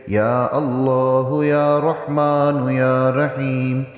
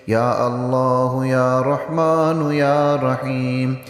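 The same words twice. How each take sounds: Both takes have the same delivery.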